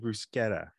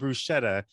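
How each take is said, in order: First: The CH is pronounced the Italian way. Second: The CH is not pronounced the Italian way. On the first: The speaker calls it right. "like it's actually bruschetta" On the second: The speaker calls it wrong. "they start ordering bruschetta"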